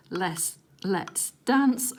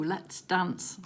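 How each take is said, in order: First: Very slow, savouring Let's dance; slow drawn-out read. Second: Said in the usual way. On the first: Shown as a demonstration. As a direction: stretch Let's dance out slowly.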